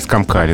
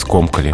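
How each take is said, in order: First: The stress is on the last syllable. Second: The stress is on the first syllable. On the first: The speaker calls it wrong. "В начале слова ударения или в конце" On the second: The speaker calls it right. "здесь только скомкали. Ударение остается на корне"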